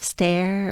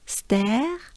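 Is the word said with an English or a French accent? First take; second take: English; French. First: It is said with an English accent. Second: It is said with a French accent. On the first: "a flight of stare" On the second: "pronounce it the French, the French way with a French accent"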